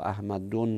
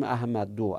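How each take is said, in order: First: احمد دون ending in nasal "-dun"; with tanwin. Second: احمد دو ending in open "-du", no n; no tanwin. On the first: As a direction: say احمد دون as ahmadun, adding a final n. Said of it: "تنوین نمیگیره غیر منصرف". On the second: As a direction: say احمد دو as ahmadu, without tanwin. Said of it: "احمد دون نمیگیم". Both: Shown as a demonstration.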